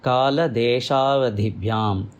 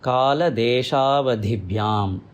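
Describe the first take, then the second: First: The words run together with merged vowels. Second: The same.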